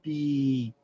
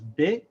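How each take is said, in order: First: The vowel is long. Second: The vowel is short. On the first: "the long vowel" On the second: "Just the ba with the kasra"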